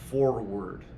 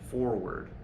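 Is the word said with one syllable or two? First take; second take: two; two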